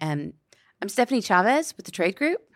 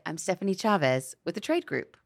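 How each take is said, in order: First: The voice rises at the end. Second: The voice falls at the end. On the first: It sounds unsure of itself. The speaker calls it wrong. "Instead of saying" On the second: It sounds landed, grounded and confident. The speaker calls it right. "to end on a down note. ... you would say it"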